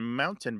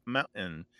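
First: Said in the usual way. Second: Mountain with a glottal stop for the T. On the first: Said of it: "a mountain becomes mountain". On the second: Shown as a demonstration. Host showing the young generation's form, glottal mountain. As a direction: swallow the middle T of mountain. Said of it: "that D sometimes becomes a glottal".

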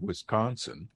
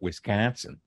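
First: Said in the usual way. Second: "Wisconsin" with a fronted flat A, like "Wis-CAN-sin"; regional Wisconsin pronunciation. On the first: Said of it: "some people pronounce it". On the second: Shown as a demonstration. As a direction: say "Wisconsin" with the middle vowel as in "cat". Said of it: "some people pronounce it Wisconsin".

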